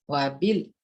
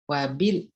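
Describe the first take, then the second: No difference in how they are said.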